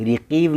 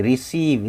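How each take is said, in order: First: रिकीव said with a k sound, ri-keev, as the mistake; wrong pronunciation. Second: रिसीव said with a clear s sound, ri-seev; correct pronunciation. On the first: Teacher showing students the wrong k sound in रिकीव. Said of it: "रिकीव नहीं". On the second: Teacher showing students रिसीव with an s sound. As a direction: say रिसीव with s, not k. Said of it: "इसके लिए स पढ़ेंगे". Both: Shown as a demonstration.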